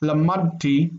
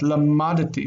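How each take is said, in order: First: The D runs straight into the T. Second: A short vowel separates the D and T. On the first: The speaker calls it wrong. "lamadti almost makes that dalet disappear" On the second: The speaker calls it right. "we really say that"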